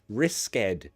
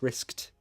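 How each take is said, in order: First: The ending is an extra id syllable. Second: The ending is a plain t sound. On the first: The speaker calls it wrong. "Not risked. No" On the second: The speaker calls it right. "It's like a t at the end"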